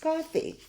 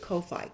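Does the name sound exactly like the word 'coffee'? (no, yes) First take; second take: yes; no. First: It is said just like the ordinary word coffee. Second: It is said unlike the ordinary word coffee. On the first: The name is read as the everyday word. "it's coffee, right?" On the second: This is how most people say the name. "everybody pronounces it Ko-Fi"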